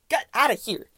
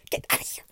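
First: Said in the usual way. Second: Whispered shoo. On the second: Real, not acted. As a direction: hiss it under her breath. Shooing fly.

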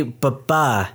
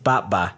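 First: "ba-ba" with a weak, quick first syllable and stressed second; imitated "ba-ba", second syllable drawn out; character's pronunciation. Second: "ba-ba" with a full first syllable, stressed up front; "ba-ba" evenly voiced, first syllable clear and strong; usual pronunciation. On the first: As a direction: say "ba-ba" as buh-BAH, leaning on the end. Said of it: "they say". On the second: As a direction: say "ba-ba" as BAH-buh, dropping lower on the end. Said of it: "instead of". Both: Shown as a demonstration.

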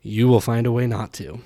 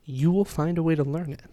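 First: "will" punched, the whole line louder; loud punchline. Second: "will" hit firmly, higher and louder; stress on will. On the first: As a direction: land the twist with a loud stressed "will". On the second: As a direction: lean hard on "will" as a promise. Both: Real, not acted. Parallel contrast, stress on will.

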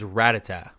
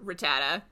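First: Rattata with stressed middle syllable; Rattata said ra-TAH-tah. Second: Rattata with stress on first syllable; Rattata said RAT-a-ta. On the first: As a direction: say Rattata with a doubled T. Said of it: "which is Rattata". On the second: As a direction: say Rattata with a light single T. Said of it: "You're still wrong". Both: Shown as a demonstration.

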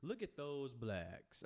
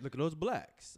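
First: Very slow, stretched words, "blacks" drawn out; drawn-out retake. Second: "blacks" said loud and high, then falling; emphatic retake. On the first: Retrying the phrase for the co-host, "blacks" slowly stretched out. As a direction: ease through it slowly, lengthening "those" and "blacks". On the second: Retrying the phrase for the co-host, "blacks" loud and high. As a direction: punch out "blacks" louder, with a raised falling pitch. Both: Shown as a demonstration. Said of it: "Let me change the word".

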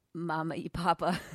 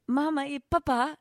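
First: Papa stressed on the first syllable, PA-puh; anglicised Papa, weight up front. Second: Papa stressed on the second syllable, pa-PA; higher-pitched Spanish attempt, pa-PA at the end; last-syllable stress. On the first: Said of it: "the accent is on the, on the, on the last syllables". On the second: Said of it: "Don't you get that better?". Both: Shown as a demonstration.

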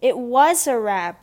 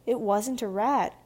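First: Loud, drawn-out stress on "was"; slow, forceful schoolboy contradiction; insistent. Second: Slow, measured denial of "wasn't"; restrained, deliberate protest; firm denial. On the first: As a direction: insist hard, punching "was" high and loud. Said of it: "Barnaby insisted". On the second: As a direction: deny it firmly, holding back. Tabitha denies the accusation. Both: A narrator's reading.

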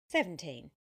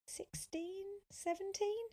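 First: SEVENTEEN louder, falling, as a statement; plain honest answer. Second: SEVENTEEN high and held up as a question; questioning guess. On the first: Sophia telling Tom her age, "seventeen" falling and honest. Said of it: "she told him honestly". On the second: Tom guessing Sophia's age, "seventeen" high and questioning. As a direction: float "seventeen" up high, unsure. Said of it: "he asked". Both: A narrator's reading.

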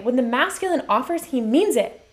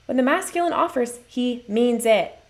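First: Said in the usual way. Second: "he means it" slowed right down for weight; emphatic repeat. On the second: Real, not acted. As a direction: drive the point home, drawing out "he means it". Key point repeated slowly after pause.

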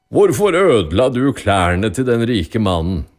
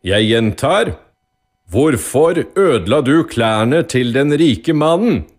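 First: Firm judge's question, first asking. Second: High, loud, slowed demand; loud, irritated. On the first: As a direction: question the accused firmly, not yet shouting. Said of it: "spurte dommeren bonden". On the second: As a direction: judge losing patience, repeating forcefully. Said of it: "sa dommeren høyt og irritert". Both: A narrator's reading.

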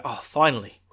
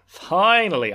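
First: Said in the usual way. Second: Relieved outburst. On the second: Retold or imitated. Rand relieved to change clothes.

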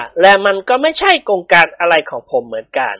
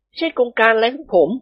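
First: Near-usual male character voice; evasive second man. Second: Higher-pitched character disclaimer; evasive first man. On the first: Dilek echoes his friend's disclaimer, lightly voiced evasion. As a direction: echo the disclaimer in a plainer voice. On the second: Phon passes the blame to Dilek, higher evasive voice. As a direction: disown it in a raised male voice. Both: A narrator's reading.

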